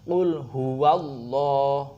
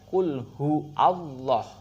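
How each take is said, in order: First: Hu and Allah are joined by a w. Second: Hu and Allah are said apart without w. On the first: The speaker calls it right. "di sini ada wawunya" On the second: The speaker calls it wrong. "Ada yang membacanya"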